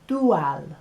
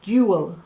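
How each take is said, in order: First: It is said with clean Spanish vowel sounds. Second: It is said with English vowel sounds. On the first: "In Espanol, it's a cleaner sound" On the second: "In English, we have dual"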